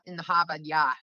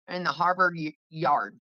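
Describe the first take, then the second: First: The r sounds in Harvard yard are dropped. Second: The r sounds in Harvard yard are pronounced. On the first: This is how another person says it. "She would say it like this. ... You forget the rest of the word" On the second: This is the speaker's own way of saying it. "So this is how I would say it"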